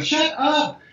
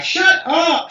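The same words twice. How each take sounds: First: Put-on "Shut up!" said high, copying the girl's habit without meaning to; a light echo of the girl's high "Shut up!"; copying her catchphrase. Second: High, sharp schoolgirl "Shut up!"; mock schoolgirl "Shut up!" said high; girl's catchphrase. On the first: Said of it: "I'm copying her". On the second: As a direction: snap "Shut up!" like the girl who always says it. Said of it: "She used to always say it".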